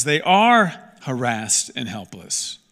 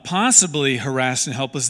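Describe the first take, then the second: First: "are" stretched and punched, phrase slowed; slow, emphatic correction landing on "are"; stress on ARE. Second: "possibly" leaned on as the doubtful word; "possibly" punched, the rest usual; stress on possibly. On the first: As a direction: hit "are" hard to insist it is fact. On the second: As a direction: lean on "possibly" to set up a denial. Contrasts possibly with are. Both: Real, not acted.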